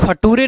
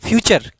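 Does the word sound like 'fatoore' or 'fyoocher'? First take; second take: fatoore; fyoocher. First: It sounds like fa-too-ray, with a hard t. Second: It sounds like fyoo-cher, with a ch sound. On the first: The speaker calls it wrong. "इसको फटूरे नहीं पढ़ेंगे" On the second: The speaker calls it right. "क्या पढ़ते हैं?"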